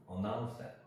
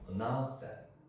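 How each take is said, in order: First: The word 'that' is weak and barely audible. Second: The word 'that' is weak and barely audible.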